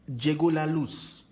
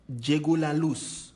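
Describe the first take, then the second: Both takes have the same delivery.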